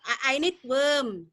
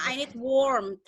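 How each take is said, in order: First: Slow "worm" with a long er vowel; wrong vowel, WORM. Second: "warmth" with a long aw vowel; corrected WARMTH. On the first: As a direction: say "worm" with er where "warm" needs aw. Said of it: "kamu nggak bisa bilang". ("worm" dengan E panjang, contoh salah) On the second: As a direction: say "warmth" with an O sound, not er. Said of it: "kamu harus bilangnya". ("warmth" dengan O panjang) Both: Shown as a demonstration.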